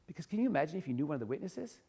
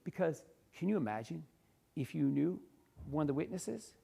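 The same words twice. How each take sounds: First: The sentence runs on without any pauses. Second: The sentence is broken up by three pauses. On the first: The speaker calls it wrong. "That's a lot harder of a chunk" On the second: The speaker calls it right. "You can see three identical pa- three pauses"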